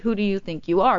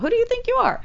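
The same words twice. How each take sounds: First: It is said in an earnest, sincere tone. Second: It is said in a mocking, sarcastic tone. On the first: It genuinely asks how someone sees themselves. "but then also, like, really" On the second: It challenges someone for acting above themselves. "kind of in a sarcastic tone"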